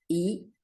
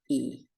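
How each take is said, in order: First: The vowel is held briefly. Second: The vowel is held twice as long. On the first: "un segundo a esta letra" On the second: "a esta le voy a dar dos"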